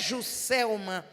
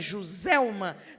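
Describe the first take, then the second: First: The middle consonant is a hissing S sound. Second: The middle consonant is a buzzing Z sound. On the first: This is how the family said the name. "eu quero que o som de C" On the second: This follows the spelling rule for S between vowels. "todo mundo fala o som de Z"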